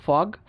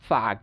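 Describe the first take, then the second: First: British ফগ with rounded O; British pronunciation. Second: American ফাগ (fog) as FAHG; American pronunciation. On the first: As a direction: say ফগ with lips rounded. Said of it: "ব্রিটিশরা যেসব জায়গায় অ". (ফগ-এ অ, British উচ্চারণ) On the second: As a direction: open AH in ফাগ. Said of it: "উচ্চারণ করে আ". (ফাগ-এ আ, American উচ্চারণ) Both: Shown as a demonstration.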